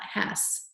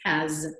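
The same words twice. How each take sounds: First: "has" ending in a hissed S, like "hass"; wrong take of "has" with an unvoiced final S. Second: "has" ending in a buzzing Z, like "haz"; right take of "has" with a voiced final Z. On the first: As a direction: end "has" on a sharp sss. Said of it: "It's not has". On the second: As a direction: end "has" on a zzz sound. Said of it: "A Z". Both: Shown as a demonstration.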